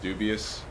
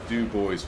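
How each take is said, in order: First: The name is said like the word 'dubious'. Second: The name is said as 'doo-bwah'. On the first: The speaker calls it wrong. "Not dubious" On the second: The speaker calls it right. "it is Du Bois Web, right?"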